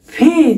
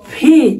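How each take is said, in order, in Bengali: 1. প্রথম ব্যঞ্জনটি মহাপ্রাণ। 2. প্রথম ব্যঞ্জনটি মহাপ্রাণ।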